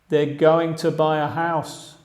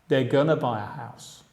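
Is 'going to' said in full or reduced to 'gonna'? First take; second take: full; reduced. First: Going to is said as two full words. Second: Going to is reduced to a short gonna.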